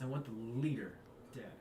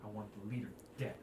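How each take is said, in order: First: Leader leaned on, dead dropped after a pause; weight the word "leader", then a beat before "dead"; stress on leader. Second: Low, fast, hushed demand; Halia's quiet threat. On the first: Guildmaster repeating her demand, leaning on "leader". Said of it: "she emphasizes on the word leader". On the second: Guildmaster to adventurers, low and fast. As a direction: lean in and say it low after checking the room. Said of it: "and she goes". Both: Acted.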